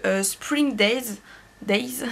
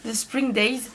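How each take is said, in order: First: Labouring over an English song title with a French accent. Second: Retrying the English title more casually, still French-accented. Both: Real, not acted. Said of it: "excusez-moi pour mon accent".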